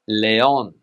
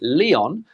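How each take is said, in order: First: It is said with Spanish pronunciation. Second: It is said with English pronunciation. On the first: "but in Spanish" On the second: "In English, we would say"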